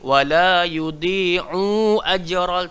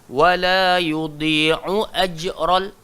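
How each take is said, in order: First: The vowel after the 'ain is lengthened. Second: The vowel after the 'ain is kept short. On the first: The speaker calls it wrong. "Tak boleh baca macam tu" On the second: The speaker calls it right. "So kena wala yudhi'u ajral"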